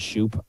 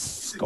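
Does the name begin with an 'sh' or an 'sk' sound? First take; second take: sh; sk. First: The name begins with an sh sound. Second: The name begins with an sk sound. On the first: This is how the speaker usually says it. "I say" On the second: This is reportedly how the player says it. "apparently, it's"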